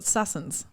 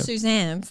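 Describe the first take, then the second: First: The name is said with a double-s, Sussans. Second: The name is said the usual way, Suzannes. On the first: This is how one family member mispronounces the name. The speaker calls it wrong. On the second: This is how everyone else says the name. The speaker calls it right.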